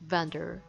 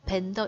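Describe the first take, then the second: First: It starts with a V, lower lip under teeth. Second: It starts with a B, both lips pressed. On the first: The speaker calls it right. "아랫입술 안쪽을 살짝 물어주면서" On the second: The speaker calls it wrong. "이렇게 입술 부닥치면 절대 안 되고요"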